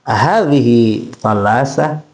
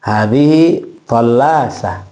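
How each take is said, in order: First: "Hadhihi tallasa" as a slow question, rising at the end; drawn-out rising tune on "Hadhihi tallasa"; question intonation. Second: "Hadhihi tallasa" as a slow statement, falling at the end; drawn-out falling tune on "Hadhihi tallasa"; informative intonation. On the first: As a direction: ask "Hadhihi tallasa", lifting the last word. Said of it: "Beda dengan pertanyaan". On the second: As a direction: state "Hadhihi tallasa" slowly, close on a fall. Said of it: "Itu informasi". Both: Shown as a demonstration.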